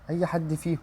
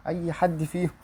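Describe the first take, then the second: No difference in how they are said.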